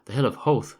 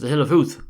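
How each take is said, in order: First: Howth rhymes with both. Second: Howth does not rhyme with both.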